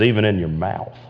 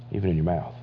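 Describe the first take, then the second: First: Said in the usual way. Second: A near-whispered repeat; hushed echo. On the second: Shown as a demonstration. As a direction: repeat it much softer, almost under the breath. Soft echo of the verse.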